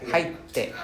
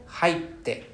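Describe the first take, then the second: Both takes have the same delivery.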